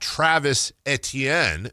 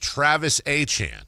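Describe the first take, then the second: First: The surname is said like 'Etienne'. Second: The surname is said like 'Achan'. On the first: The speaker calls it wrong. "So it's not Travis Etienne" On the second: The speaker calls it right. "pronounced exactly like Devin Achan"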